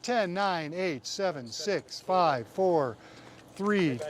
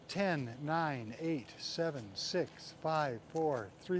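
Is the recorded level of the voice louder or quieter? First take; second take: louder; quieter. First: The voice is recorded at a louder level. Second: The voice is recorded at a quieter level. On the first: The speaker calls it right. "that ought to be considerably hotter" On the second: The speaker calls it wrong. "I wasn't exactly speaking in a broadcast voice either"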